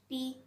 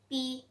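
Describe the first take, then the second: Both takes have the same delivery.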